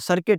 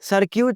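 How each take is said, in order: First: No u vowel is pronounced after the k. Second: A u vowel is pronounced after the k. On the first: The speaker calls it right. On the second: The speaker calls it wrong.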